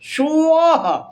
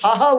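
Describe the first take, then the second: First: It is said with an s-w glide, as swaha. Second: It is said with a plain s, as saha. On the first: The speaker calls it right. "স ও আহা" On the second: The speaker calls it wrong. "ওটাকে সাহা বলবেন না"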